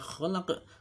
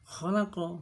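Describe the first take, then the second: First: The word ends on q with an echoing bounce. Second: The word ends with a short vowel after q. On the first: "Kalau diwaqafkan dibaca khalaq, baru qalqalah kubra" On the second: "Ini bukan qalqalah"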